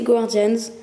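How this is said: The word is said with an English accent. "si on a un bon accent anglais"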